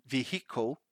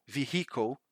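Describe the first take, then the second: Both takes have the same delivery.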